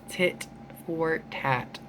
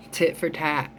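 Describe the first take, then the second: First: Tit for tat dragged out slowly and softer, each word separate; slow, much softer repeat for emphasis; slow emphatic repeat. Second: Said in the usual way. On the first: Shown as a demonstration.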